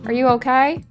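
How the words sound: It is said in a put-on Southern accent.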